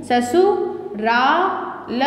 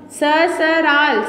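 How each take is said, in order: First: ससुराल said sa-su-raal, very slow; the right form ससुराल, syllable by syllable; corrected word slowly. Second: ससराल said sa-sa-raal, very slow; the wrong word ससराल, drawn out; wrong form read slowly. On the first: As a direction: stretch ससुराल with a clear su. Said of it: "क्या होता है, ससुराल". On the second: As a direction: stretch out ससराल with no u sound. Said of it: "ससराल नहीं होता". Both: Shown as a demonstration.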